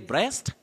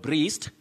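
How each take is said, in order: First: The vowel sounds like the vowel in 'bed'. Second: The vowel sounds like the vowel in 'see'. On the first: The speaker calls it right. "You say breast" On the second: The speaker calls it wrong. "not breast"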